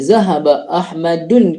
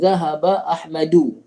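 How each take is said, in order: First: The name ends with an added final n sound. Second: The name ends on a vowel without n. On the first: The speaker calls it wrong. "Pertama saya kata zahaba Ahmadun" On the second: The speaker calls it right. "Kedua zahaba Ahmadu. ... tidak bertanwin"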